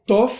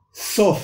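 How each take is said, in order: First: "tof" with a firm t stop; hard T in tof. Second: "sof" opening on s, higher; S sound in sof. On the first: Teacher shows the last letter with dogesh, hard T. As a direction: tap a clear t to start "tof". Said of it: "cuando tiene énfasis". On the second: Teacher shows the last letter without dogesh, S sound. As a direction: start "sof" with a hissing s, not t. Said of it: "como si fuese una S". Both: Shown as a demonstration.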